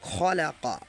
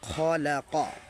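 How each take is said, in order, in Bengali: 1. প্রথম স্বরধ্বনিটি হ্রস্ব রাখা হয়। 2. প্রথম স্বরধ্বনিটি হ্রস্ব রাখা হয়।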